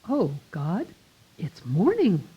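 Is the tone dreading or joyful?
joyful. It sounds bright and thankful, like a greeting. The new day is a gift. "And I'll say"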